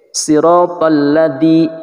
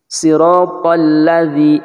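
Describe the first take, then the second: First: Siratal ladzi with the dz pressed too hard; wrong siratal ladzi. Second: Siratal ladzi chanted slow and gently. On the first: Teacher showing students the overpressed siratal ladzi. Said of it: "tidak seperti itu". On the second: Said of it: "agak lembut". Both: Shown as a demonstration.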